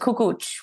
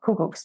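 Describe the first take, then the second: First: The word ends with a ch sound. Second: The word ends without a ch sound. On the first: The speaker calls it right. "with a little bit of a ch at the end" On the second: The speaker calls it wrong. "clearly I was pronouncing it incorrectly"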